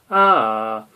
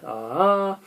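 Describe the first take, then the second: First: The pitch glides downward from high to low. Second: The pitch glides upward from low to high. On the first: "go from a high to a low" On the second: "going from a low to a high"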